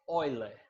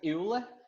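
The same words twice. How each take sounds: First: The name is said starting with an 'oy' sound. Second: The name is read as spelled, starting 'eh-oo'. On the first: This is how the name is actually pronounced. The speaker calls it right. "mas a pronúncia é Euler" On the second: This is how the name is written. The speaker calls it wrong. "se escreve Euler"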